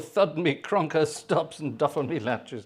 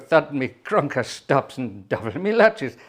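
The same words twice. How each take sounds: First: It is said in an ordinary speaking voice. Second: It is said in a put-on character voice. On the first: The speaker calls it wrong. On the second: The speaker calls it right.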